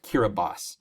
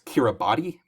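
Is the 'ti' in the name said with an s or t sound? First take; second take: s sound; t sound. First: The 'ti' is said with an s sound. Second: The 'ti' is said with a t sound. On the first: The speaker calls it right. "it's actually pronounced Kiribati" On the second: The speaker calls it wrong. "the spelling there may look like it's a, it's Kiribati"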